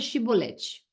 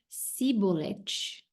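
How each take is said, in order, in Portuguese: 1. A palavra começa com um som de sh. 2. A palavra começa com um som de s. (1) "então fala a palavra chibolete" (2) "Se ele era de Efraim, ele dizia cibolete"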